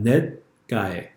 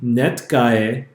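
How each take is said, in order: First: The t sound is stopped without release. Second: The t sound is popped open audibly. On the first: The speaker calls it right. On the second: The speaker calls it wrong. "It wouldn't be"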